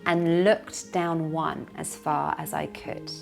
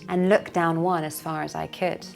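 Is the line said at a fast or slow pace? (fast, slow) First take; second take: slow; fast. First: The line is spoken slowly. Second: The line is spoken at natural speed. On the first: "Slowly first" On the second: "then natural speed"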